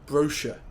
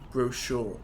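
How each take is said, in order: First: It is said the British way. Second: It is said the American way. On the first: "in British English" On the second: "in American English"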